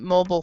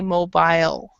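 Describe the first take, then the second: First: It is said with an American pronunciation. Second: It is said with a British pronunciation. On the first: "In American English, um, as you have heard, I have actually pronounced it" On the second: "In British English, they actually say"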